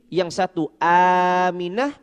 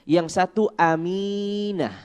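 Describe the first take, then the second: No difference in how they are said.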